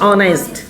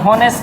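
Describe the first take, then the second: First: The word starts with a vowel, no h. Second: The word starts with an audible h sound. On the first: The speaker calls it right. "इसे बोलते हैं ऑनेस्ट" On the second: The speaker calls it wrong. "लेकिन होनेस्ट नहीं होता है"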